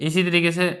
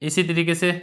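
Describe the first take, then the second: No difference in how they are said.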